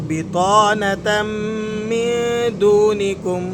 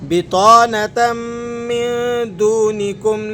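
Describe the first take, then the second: Both takes have the same delivery.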